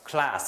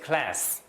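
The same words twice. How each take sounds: First: It is said with a British accent. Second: It is said with an American accent. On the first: "영국 발음 어떻게 되겠어요?" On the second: "미국 발음 시작"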